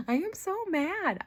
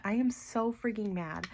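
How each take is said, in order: First: Higher, exasperated cry of real frustration; frustrated outburst. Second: Said in the usual way. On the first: Real, not acted. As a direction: let the frustration spill out, pitched up.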